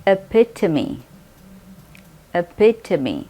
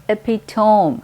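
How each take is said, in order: First: Epitome as ih-PIT-uh-mee; correct epitome. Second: Epitome ending in tome, EP-i-tome; wrong epitome. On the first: Teacher modelling the correct epitome. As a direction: model epitome with four syllables. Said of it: "सही pronunciation है". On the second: Teacher imitating learners' wrong epitome. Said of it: "टोम कहते हैं बहुत सारे लोग". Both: Shown as a demonstration.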